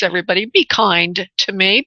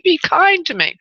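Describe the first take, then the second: First: Said in the usual way. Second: High pleading repeat. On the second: Real, not acted. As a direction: beg sweetly, pitched up. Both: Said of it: "please, be kind to me".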